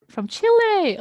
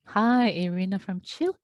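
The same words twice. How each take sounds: First: High, loud, thrilled repeat; light up at the name Chile; excited exclamation; delighted. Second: Said in the usual way. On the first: Real, not acted.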